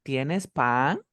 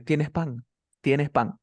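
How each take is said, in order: First: "tienes pan" asked, voice rising on pan; question tune. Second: "tienes pan" stated as fact, no lift on pan; statement tune. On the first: Teacher contrasting question with statement for student, questioning rise. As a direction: lift the word "pan" into a question. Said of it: "¿Te estoy afirmando o te estoy preguntando?". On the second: Teacher showing a student a Spanish statement, stated with falling tune. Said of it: "Yo estoy afirmándote que tienes pan". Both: Shown as a demonstration.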